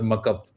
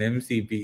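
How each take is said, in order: First: It is said as a single word. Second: It is said letter by letter. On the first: The speaker calls it wrong. "It's not Kali or muck up" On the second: The speaker calls it right. "You pronounce the capital words"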